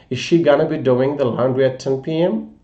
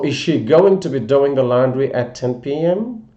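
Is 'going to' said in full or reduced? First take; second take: reduced; full. First: The words going to are reduced to gonna. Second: The words going to are said in full.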